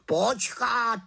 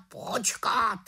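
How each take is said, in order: First: High, louder raven cutting in; raven interrupting. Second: Raven interrupting. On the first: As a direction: break in urgently as the raven. (havran skáče do řeči, hlasitě) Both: A narrator's reading. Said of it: "skočil jí do řeči Havran".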